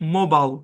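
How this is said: The last syllable is a short 'bul'. "আমেরিকানরা করে মোবাইল"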